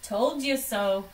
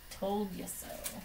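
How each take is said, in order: First: Louder smug Told you so. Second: Softer, slower Told you so; quiet repeat. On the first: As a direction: say it outright to the family. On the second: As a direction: murmur it again to yourself, satisfied. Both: Acted. Doctor gloats, then repeats.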